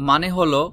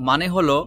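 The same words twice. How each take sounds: Both takes have the same delivery.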